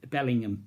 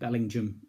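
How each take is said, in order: First: The name ends with a hard G and 'ham'. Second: The name ends with a soft 'jum' sound. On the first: The speaker calls it wrong. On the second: The speaker calls it right.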